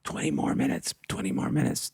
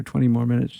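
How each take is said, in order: First: Urgent backstage whisper, no voice at all. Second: Said in the usual way. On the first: Retold or imitated. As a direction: breathe it as a hushed whisper. Retold backstage instruction, whispered. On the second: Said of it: "So I told the lead singer".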